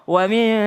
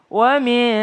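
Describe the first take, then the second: No difference in how they are said.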